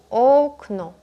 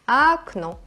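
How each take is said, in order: First: The first vowel is pronounced as O. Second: The first vowel is pronounced as A. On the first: The speaker calls it wrong. "diríamos algo como okno" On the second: The speaker calls it right. "la primera vocal se escribe O, pero se pronuncia A"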